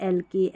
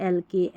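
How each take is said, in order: The two takes are said the same way.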